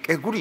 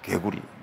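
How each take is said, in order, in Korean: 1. 이 단어는 된소리 k로 시작합니다. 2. 이 단어는 평음 k로 시작합니다. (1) "이 개구리 발음이 안 돼가지고요 늘 깨구리 깨구리 이렇게 했습니다" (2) "엄청난 훈련을 겪은 결과 개구리"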